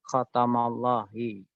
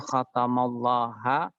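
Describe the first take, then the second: First: The word ends with the vowel i. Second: The word ends with the vowel a. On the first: "tidak mungkin seperti itu" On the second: "tidak mungkin"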